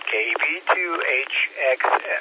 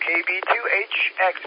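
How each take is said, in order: First: The call sign is spoken more slowly. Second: The call sign is spoken quickly. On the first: The speaker calls it right. "Let me say it a little slower" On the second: The speaker calls it wrong. "Maybe I said it too fast"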